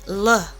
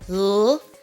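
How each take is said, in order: First: The consonant is followed by an added uh. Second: The consonant is said alone with no vowel. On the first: The speaker calls it wrong. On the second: The speaker calls it right. "Just pronounce them as pure sounds"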